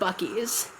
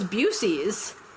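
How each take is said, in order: First: The middle consonant is a k sound. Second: The middle consonant is an s sound. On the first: "he did not pronounce it Bucky's" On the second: "He goes, "Oh, I thought it was Busey's,""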